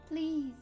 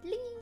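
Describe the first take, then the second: First: It is said in a plain, flat way. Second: It is said in a sweet, nice way.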